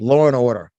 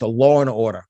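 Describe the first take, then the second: First: Law and order with the New York lawr and awdah; New York accent. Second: Law and order in a New York accent, lawr-and-awdah. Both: Shown as a demonstration. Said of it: "That's my New York accent".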